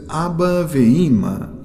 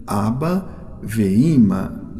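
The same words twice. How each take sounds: First: Abba ve'ima said clearly with stress on Abba; Hebrew example. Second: Abba ve'ima said very slowly, syllable by syllable; slow deliberate Abba ve'ima; slow Hebrew repeat. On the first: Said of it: "models Hebrew example". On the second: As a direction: stretch out Abba ve'ima for students. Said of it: "repeats example slowly". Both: Shown as a demonstration.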